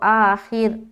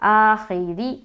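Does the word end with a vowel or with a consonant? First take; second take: consonant; vowel. First: The word ends on the consonant 'r'. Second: The word ends with an 'i' vowel. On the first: The reader stops at this word. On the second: The reading continues without a stop.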